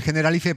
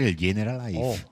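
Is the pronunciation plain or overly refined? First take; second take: plain; overly refined. First: It is said in a plain, everyday way. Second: It is said in an exaggeratedly posh, refined way.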